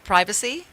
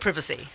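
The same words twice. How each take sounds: First: It is said with an American accent. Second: It is said with a British accent.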